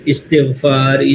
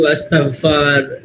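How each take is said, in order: First: The word begins with an 'i' vowel. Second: The word begins with an 'a' vowel. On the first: The speaker calls it right. "सही प्रोनाउंसिएशन क्या है? ... पहले पे जेर, तीसरे पर जेर" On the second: The speaker calls it wrong. "बहुत सारे लोग अस्तगफार"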